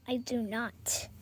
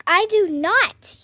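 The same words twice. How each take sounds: First: Said in the usual way. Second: Louder, higher, slower, stamping it out; emphatic childish protest; insistent denial. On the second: Acted. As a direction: plant your feet and deny it. Denies then repeats louder.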